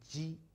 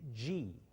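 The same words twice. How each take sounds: First: The tongue tip rests behind the lower front teeth. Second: The first sound is like English 'j' in 'Jeep'. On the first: The speaker calls it right. "But it's G. ... tip of your tongue touching the back of your lower teeth" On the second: The speaker calls it wrong. "like in your Jeep"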